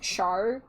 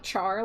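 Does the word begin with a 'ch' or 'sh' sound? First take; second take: sh; ch. First: It begins with a soft 'sh' sound. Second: It begins with a hard 'ch' sound. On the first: "like Charlotte" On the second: "like Charmander"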